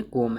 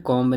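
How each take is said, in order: First: कॉम ending on m, no b; correct, silent B. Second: कॉम्ब with the b sounded; wrong pronunciation. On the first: Teacher giving learners the correct comb, कॉम with silent B. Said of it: "इसमें बी silent". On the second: Teacher rejecting a misreading of comb, wrong कॉम्ब with b. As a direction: end कॉम्ब on an audible b. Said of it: "कॉम्ब नहीं है". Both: Shown as a demonstration.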